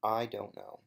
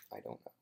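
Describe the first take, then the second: First: Said in the usual way. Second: "I don't know" dropped far softer and lower, almost swallowed; soft low aside; under breath. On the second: Real, not acted. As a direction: mutter it to yourself.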